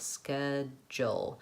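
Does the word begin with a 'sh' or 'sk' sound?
sk. The word begins with a 'sk' sound. "we tend to say ske with a K sound"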